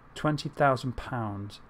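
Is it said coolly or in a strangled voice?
coolly. It is said in a cool, calm voice.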